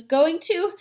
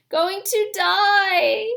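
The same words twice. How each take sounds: First: Said in the usual way. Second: Much higher, slow, breaking on the edge of tears; boy choking up over his dying mother, voice breaking. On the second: Acted. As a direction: fight back tears as the voice cracks. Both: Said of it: "trying to keep back your tears".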